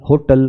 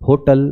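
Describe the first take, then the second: The two takes are said the same way.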